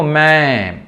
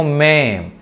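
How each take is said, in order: First: మే stretched slowly, set against the other మే; slow teacher demo of మే; contrast of మే. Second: Second మే said short and plainly; plain reading of మే for contrast. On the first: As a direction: draw out మే so they hear the difference. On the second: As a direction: clip మే as the other version. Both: Shown as a demonstration. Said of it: "దీన్ని ఎలా పలకాలంటే చూడండి".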